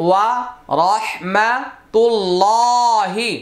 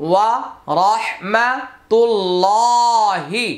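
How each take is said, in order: No difference in how they are said.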